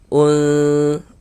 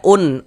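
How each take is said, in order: First: The n sound is blurred, nasalized and held. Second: The n sound is pronounced clearly and short. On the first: The letter is hidden into the next sound. The speaker calls it right. "kita dengungkan. Un, un seperti itu" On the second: The letter is read openly, not hidden. The speaker calls it wrong. "jangan baca un, ... Kalau kita baca un itu jelas nantinya nanti dia jadinya izhar, jangan"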